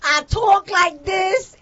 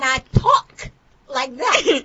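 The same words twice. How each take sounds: First: "talk" with drawn-out New York aw; slow, exaggerated New York "talk"; New York pronunciation. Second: "talk" with open ah, slowly; slow, non-New York "talk"; standard pronunciation. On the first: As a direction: stretch talk into tawk, higher. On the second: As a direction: say talk carefully as tahk. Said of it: "and I talk like that". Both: Shown as a demonstration.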